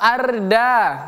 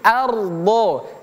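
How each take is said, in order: First: The r and d sounds are light and thin. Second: The r and d sounds are heavy and thick. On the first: The speaker calls it wrong. "bukan ardo atau arda" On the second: The speaker calls it right.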